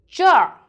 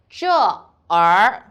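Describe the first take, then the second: First: The er is merged as a curled-tongue ending. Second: The er is said as a separate second syllable. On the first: The speaker calls it right. "We read jar" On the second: The speaker calls it wrong. "cannot read like jar er"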